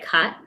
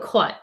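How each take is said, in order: First: The vowel is an unrounded 'ah' sound. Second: The vowel is a rounded 'aw' sound. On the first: The speaker calls it wrong. "Then that would be C O T" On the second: The speaker calls it right. "A-U, oh"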